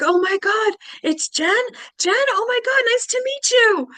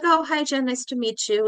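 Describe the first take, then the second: First: Very high, loud gushing; starstruck excitement. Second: Higher-pitched, casually friendly hello; imitated courteous small talk; polite greeting. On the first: Retold or imitated. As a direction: squeal like a thrilled fan meeting someone. Strangers excitedly recognizing her. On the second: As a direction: greet a new acquaintance pleasantly, without fuss. Polite greeting before they recognize her.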